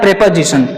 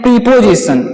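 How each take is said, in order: First: The first syllable has a short e vowel. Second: The first syllable has a long ee vowel. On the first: The speaker calls it right. "इसका जो शुद्ध शुद्ध उच्चारण होता है" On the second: The speaker calls it wrong. "कुछ बच्चे बोलते हैं प्रीपोजिशन, ये इसका शुद्ध उच्चारण नहीं है"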